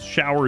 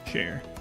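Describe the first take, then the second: First: It is said with two syllables. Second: It is said as one syllable, like 'share'. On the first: "Way too many syllables" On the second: "Shower is just share where I'm from"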